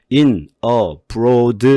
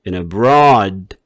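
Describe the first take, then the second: First: «In abroad» по-корейски, каждое слово отдельно; «In abroad» с корейским акцентом, раздельно; Korean-style separated. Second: «In abroad» слитно, медленно, ударение на «abroad»; «In» сливается с «abroad», без паузы; linked, slow. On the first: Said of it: "이렇게 읽으면 안 돼요. 한국식으로". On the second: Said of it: "뒤에 오는 명사와 같이 읽어줘요". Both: Shown as a demonstration.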